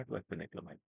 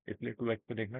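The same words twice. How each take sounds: First: Softer, lower throwaway aside; quiet aside. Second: Said in the usual way. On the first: Real, not acted. Teacher tells viewers to watch at 2x, soft aside. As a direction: drop it under your breath to the viewer. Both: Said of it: "बहुत आराम-आराम से बोलूँगा".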